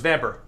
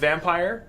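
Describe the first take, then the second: First: The word ends with a short 'per' sound. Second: The word ends with a sound like 'fire'. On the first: The speaker calls it right. "But I'm American, so it's Vamper" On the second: The speaker calls it wrong. "I refuse to pronounce that game as Vampire"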